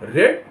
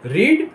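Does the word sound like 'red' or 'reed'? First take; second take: red; reed. First: The vowel is short, like 'red'. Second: The vowel is long, like 'reed'. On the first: It is the past form of the verb. "Second form में R E D को रेड" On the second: It is the present form of the verb. "First form में रीड कहेंगे R E D"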